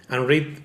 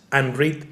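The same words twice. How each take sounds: The two takes are said the same way.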